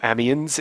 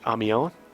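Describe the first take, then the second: First: The name is pronounced in a crass way. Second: The name is pronounced in a refined way.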